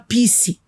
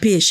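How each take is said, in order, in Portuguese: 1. A palavra é pronunciada com um erro de pronúncia infantil. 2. A palavra é pronunciada da forma padrão de adulto. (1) "ele falava pisse" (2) "Ele não falava peixe"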